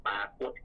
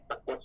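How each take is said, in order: First: ปรากฏ with a long first "paa"; long first vowel. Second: ปรากฏ with a short first "pa"; short first vowel. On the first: Teacher lists both written forms, ปรากฏ with long first vowel. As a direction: lengthen the first syllable of ปรากฏ. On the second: Teacher lists both written forms, ปรากฏ with short first vowel. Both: Shown as a demonstration. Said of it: "มีทั้งปรากฏและปรากฏ".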